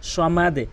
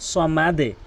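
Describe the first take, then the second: The two takes are said the same way.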